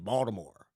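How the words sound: It is pronounced the way locals say the name. The speaker calls it right. "they say Baltimore"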